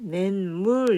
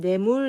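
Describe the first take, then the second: First: The first syllable ends with an n sound. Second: The first syllable ends without an n sound. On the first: The speaker calls it right. "낸물 이렇게 얘기합니다" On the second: The speaker calls it wrong. "뇌물 이렇게 하지 않고"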